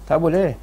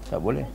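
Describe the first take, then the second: First: Said in the usual way. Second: Soft echo. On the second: Shown as a demonstration. Ustaz echoing his own answer, much softer. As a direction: drop to a much softer repeat.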